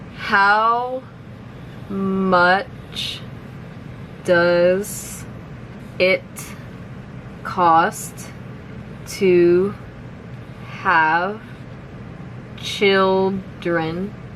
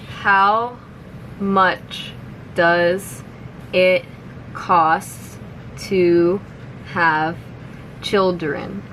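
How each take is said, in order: First: The sentence is spoken very slowly. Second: The sentence is spoken somewhat faster. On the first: "I'll say it slowly first" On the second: "a little bit faster now"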